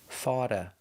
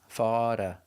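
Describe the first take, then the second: First: The T sounds like a quick D. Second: The T sounds like a quick D.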